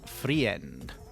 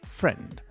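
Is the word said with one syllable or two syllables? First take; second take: two; one. First: The word is split into two syllables. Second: The word is said as one syllable. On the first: The speaker calls it wrong. "not free end" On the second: The speaker calls it right. "it's friend"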